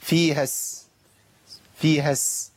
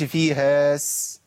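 First: "فيها س" with a short vowel closing onto sin; ha straight into sin. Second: "فيها س" with the ha vowel drawn out slowly; wrongly stretched ha. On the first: Teacher modelling the join, short ha into sin. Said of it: "وبنتقل من الهاء إلى السين". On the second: Teacher showing the forbidden join, stretched ha. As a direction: hold the long vowel of "فيها" before the sin. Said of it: "ما ينفعش". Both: Shown as a demonstration.

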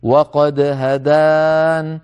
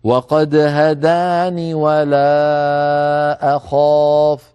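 First: "هدان" said very slowly, ending on a still noon with no vowel; pause form with silent noon. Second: "هداني" said very slowly, noon with kasra flowing into "ولا"; joined form with kasra noon. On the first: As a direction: stop on "هدان" with a sukun noon, drawn out. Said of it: "نقف عليها بنون ساكنة فنقول". ("هدان" بنون ساكنة عند الوقف ببطء) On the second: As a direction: link "هداني" to the next word through a kasra noon. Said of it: "نصل بنون مكسورة فنقول". ("هداني" بنون مكسورة عند الوصل ببطء) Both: Shown as a demonstration.

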